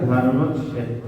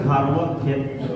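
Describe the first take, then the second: First: ধর্মক্ষেত্র with each letter sounded, Sanskrit style; now say ধর্মক্ষেত্র the Sanskrit way; Sanskrit pronunciation. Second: ধর্মক্ষেত্র in ordinary Bengali, letters merged; Bengali pronunciation. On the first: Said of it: "সংস্কৃতে উচ্চারণ". (সংস্কৃত উচ্চারণে ধর্মক্ষেত্র) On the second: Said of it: "আমরা বাংলায় হচ্ছে". (বাংলা উচ্চারণে ধর্মক্ষেত্র) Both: Shown as a demonstration.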